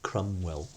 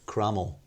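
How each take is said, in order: First: A W sound is pronounced in the middle. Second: No W sound is pronounced in the middle. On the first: "you stay with a W quite a lot" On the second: "It was Crummell"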